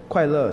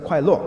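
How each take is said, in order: First: It is said in standard Mandarin pronunciation. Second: It is said with a heavy Fujian accent.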